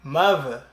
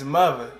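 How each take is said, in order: First: The middle consonant is a v sound. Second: The same.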